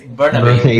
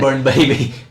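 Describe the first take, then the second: First: It sounds like one word with a reduced middle. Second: It sounds like the two words burn baby. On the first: The speaker calls it right. "It's Burnaby" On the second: The speaker calls it wrong. "not ... Burn Baby"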